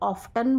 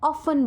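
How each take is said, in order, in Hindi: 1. बीच में 't' की ध्वनि बोली जाती है। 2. बीच में 't' की ध्वनि साइलेंट है। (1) "अमेरिकन इसे ऑफ्टन बोलते हैं, वो टी का साउंड बीच में लेते हैं" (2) "ब्रिटिशर्स हैं वो ऑफन बोलते हैं, वो टी को साइलेंट कंसिडर करते हैं"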